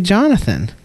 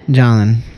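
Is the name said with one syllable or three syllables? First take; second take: three; one. First: The name is said with three full syllables. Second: The name is squeezed into one syllable. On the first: "I say Jonathan" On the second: "It's like 3-syllable word, and you make it into 1 syllable"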